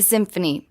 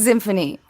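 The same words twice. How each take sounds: First: The word begins with a plain s sound. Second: The word begins with a buzzing z sound. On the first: This is the ordinary way to say it. "It's just the symphony" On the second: This imitates how someone else says it. "but he pronounces it symphony"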